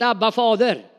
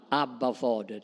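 First: Abba, Fader called out loud and fervent; proclaimed. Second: "Abba, Fader" said softly and intimately, like calling a dad; soft, close and loving, almost to yourself; tender. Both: Shown as a demonstration. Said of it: "Ett mera förtroligt namn för pappa".

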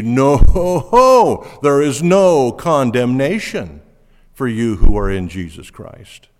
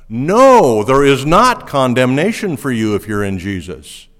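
First: No thrown out loud, a laugh, then no condemnation slowed and stressed. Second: Bang the opening No, like the Greek puts it first; stress on No. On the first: Preacher giving a second, stronger version of the emphatic No. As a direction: land No hard, laugh, and lean on no condemnation. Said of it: "And it could even be". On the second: Preacher showing his church the Greek word order, punching No. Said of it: "And so it's like this". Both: Shown as a demonstration.

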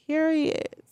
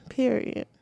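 First: Period said again much higher as a closing punch; sassy high Period to close the point; emphatic final word. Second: Said in the usual way. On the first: Shown as a demonstration. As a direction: land Period high and firm to end the argument.

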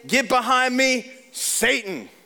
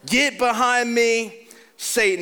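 First: Stern rebuke. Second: "Get behind me, Satan" slowed, with a hard stress on Get; slow rebuke. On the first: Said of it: "what did he say?". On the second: Preacher repeating Jesus's rebuke of Peter, slow and heavy. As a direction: lean on Get and drag it out. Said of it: "That's a boundary right there". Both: Retold or imitated.

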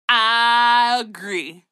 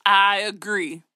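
First: Long drawn-out I, louder; emphatic agreement. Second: Said in the usual way. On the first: Real, not acted. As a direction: stretch I right out in hearty agreement.

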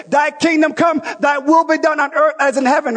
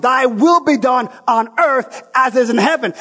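First: Big declared prayer, will stressed; shouted prayer. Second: Said in the usual way. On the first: Retold or imitated. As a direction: cry out the prayer like a congregation in full voice. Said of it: "here we are saying". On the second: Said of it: "He wants the kingdom".

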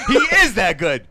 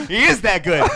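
First: Slow, loud laughing repeat; slower laughing emphasis. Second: Laughing loudly in disbelief. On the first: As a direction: stretch it out while laughing. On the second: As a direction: laugh through the words. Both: Real, not acted.

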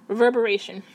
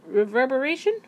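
First: Reverberation said firmly with a falling tune; confident falling take. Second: Reverberation? asked with a rising, unsure tune; unsure rising try. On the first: Settling on the word for viewers, Reverberation falling firmly. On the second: Trying out a new word on viewers, reverberation rising. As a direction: test the word reverberation like a question. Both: Shown as a demonstration. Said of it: "Maybe that sounds more real".

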